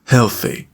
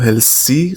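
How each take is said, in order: First: The middle sound is a soft 'th' hiss. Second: The middle sound is a plain 's' hiss. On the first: The speaker calls it right. "زبون رو باید بین دندون رو بذارید و هوا رو عبور بدید" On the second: The speaker calls it wrong. "سه نمیگم و healthy غلطه"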